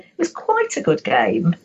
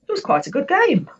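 First: The voice sounds hesitant and doubtful. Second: The voice sounds surprised and impressed. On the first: The speaker has some reservations about the game. "If I use my voice to say" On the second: The game was actually really brilliant. "I was surprised"

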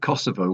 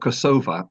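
First: The name ends in an 'o' sound. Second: The name ends in an 'a' sound, stress shifted. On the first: This is the Serbian form of the name. "which is actually the Serbian pronunciation of the name" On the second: This is the Albanian form of the name. "with an A at the end and stressed differently, which is the Albanian pronunciation"

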